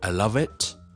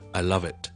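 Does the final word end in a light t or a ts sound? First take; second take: ts sound; light t. First: The final word ends with a ts-like buzzing sound. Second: The final word ends with a light, soft t. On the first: The speaker calls it wrong. "so don't say" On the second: The speaker calls it right.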